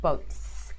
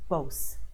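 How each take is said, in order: First: The T sound before the S is clearly said. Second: The T sound before the S is dropped. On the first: The speaker calls it right. "rather than boats" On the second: The speaker calls it wrong. "he drops the T"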